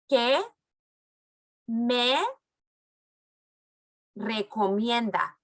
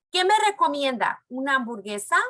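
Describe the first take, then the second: First: Each word alone with pauses to repeat; slow word by word. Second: Said in the usual way. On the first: Shown as a demonstration. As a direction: stretch out recomienda slowly. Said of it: "When I go like this, that means it's your turn". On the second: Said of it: "When I go like this".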